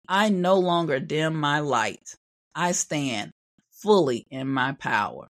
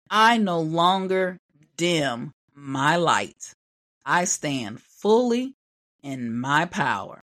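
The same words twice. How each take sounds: First: It is spoken at a quicker pace. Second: It is spoken at a slower pace.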